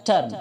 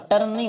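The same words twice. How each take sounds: First: टर्न with teeth meeting on an airy English t; correct t sound. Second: टर्न with a plain hard Hindi t; wrong pronunciation. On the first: Teacher modelling the word for mudna, correct t sound. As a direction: punch out the t of टर्न. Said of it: "टी बोलते समय आपके दांत टकराएंगे". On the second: Teacher showing the mistake in turn, wrong pronunciation. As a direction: say टर्न with an unaspirated t. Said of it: "तो टर्न नहीं होता है". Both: Shown as a demonstration.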